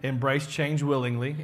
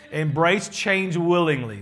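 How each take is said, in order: First: Said in the usual way. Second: "Embrace change willingly" slowed and louder, each word weighted; "Embrace change willingly" delivered slowly and firmly as the key point; slow emphatic. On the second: Real, not acted.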